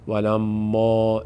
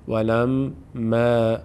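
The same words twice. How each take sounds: First: The long a after m sounds full and heavy. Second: The long a after m sounds light and thin. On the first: The speaker calls it wrong. "نمیگیم" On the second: The speaker calls it right. "پر خوانده نمیشه"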